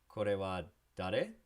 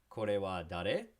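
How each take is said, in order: The two takes are said the same way.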